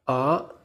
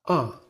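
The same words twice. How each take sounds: First: The pitch rises from low to high. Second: The pitch falls quickly and strongly. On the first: "Your voice should rise just like the car" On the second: "Your voice should also fall quickly and strongly"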